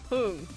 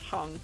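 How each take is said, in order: First: The vowel in the name is long. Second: The vowel in the name is short. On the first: The speaker calls it right. "That U is long and not short" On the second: The speaker calls it wrong. "I don't think it's pronounced Hung"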